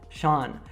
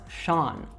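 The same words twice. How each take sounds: No difference in how they are said.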